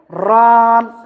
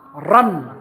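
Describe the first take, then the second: First: The vowel is drawn out long. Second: The vowel is kept short. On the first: The speaker calls it wrong. "Don't prolong. Don't don't say run" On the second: The speaker calls it right. "No prolongation"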